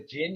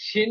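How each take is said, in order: First: The word begins with a 'j' sound. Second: The word begins with an 'sh' sound. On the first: This is the Spanish Arabic reading of the word. "it's a jinn if you're in the Spanish Arabic" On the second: This is the Latin reading of the word. "It's shin if you're in Latin"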